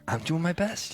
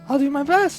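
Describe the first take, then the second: First: It is said in a lower-pitched voice. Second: It is said in a higher-pitched voice.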